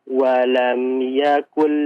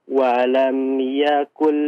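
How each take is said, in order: Both takes have the same delivery.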